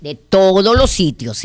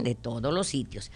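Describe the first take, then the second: First: Said in the usual way. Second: Quiet repeat. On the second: Real, not acted.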